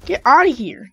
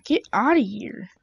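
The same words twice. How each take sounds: First: Loud, punchy get-outta-here; loud taunt. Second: Said in the usual way. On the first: Real, not acted. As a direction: bark it at the enemy. Taunting enemy after a kill.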